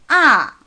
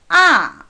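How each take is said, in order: First: The pitch falls sharply and briefly. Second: The pitch falls sharply and briefly.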